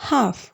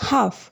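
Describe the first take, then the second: The two takes are said the same way.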